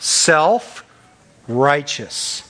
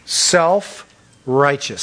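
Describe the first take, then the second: First: Self-righteous stretched very slow and falling; drawn out slowly. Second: Self-righteous repeated, slow and falling; Self-righteous said slowly again with a falling end; drawn out slowly. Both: Shown as a demonstration. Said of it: "You call that what?".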